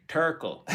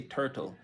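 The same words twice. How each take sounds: First: "turkle" with a k sound replacing the second t; drawn-out Jamaican "turkle", hard k in the middle; Jamaican pronunciation. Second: Said in the usual way. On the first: Shown as a demonstration. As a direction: say "turkle", Jamaican for turtle, slowly. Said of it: "They say turkle". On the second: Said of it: "we don't say turtle".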